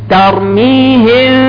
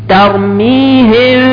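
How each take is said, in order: The two takes are said the same way.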